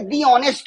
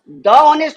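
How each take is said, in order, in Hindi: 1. 'The' को लंबे 'ee' स्वर के साथ बोलते हैं। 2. 'The' को छोटे 'uh' स्वर के साथ बोलते हैं। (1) "दी ऑनेस्ट पर्सन।" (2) "द ऑनेस्ट होगा"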